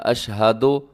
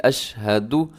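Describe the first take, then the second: First: अशहदो with an open "o" ending; wrong final vowel. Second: अशहदु closing on a short, rounded "du"; careful "ash-ha-du"; correct short u. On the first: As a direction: finish अशहदो on "do", not "du". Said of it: "ये दुरुस्त नहीं है". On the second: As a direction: end अशहदु crisply on "u". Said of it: "इसको अशहदो नहीं पढ़ना". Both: Shown as a demonstration.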